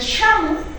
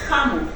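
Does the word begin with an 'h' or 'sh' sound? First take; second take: sh; h. First: The word begins with an 'sh' sound. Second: The word begins with an 'h' sound. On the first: This is the Chanca Quechua form. "Ellos utilizan Sha" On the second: This is the Cusco Collao Quechua form. "el Cusco Collao utiliza Ja"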